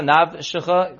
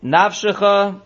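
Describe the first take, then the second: First: Navshecha said with a v in place of the f; wrong v sound. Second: Nafshecha said clearly with the f sound; correct f sound. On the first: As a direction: let the f of nafshecha slip into a v. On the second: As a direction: say Nafshecha with a crisp f. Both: Shown as a demonstration. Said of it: "instead of nafshecha".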